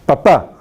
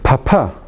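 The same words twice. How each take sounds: First: The p is said without a puff of air. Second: The p is said with a puff of air. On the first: "en español" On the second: "Siempre ocurre aspiración"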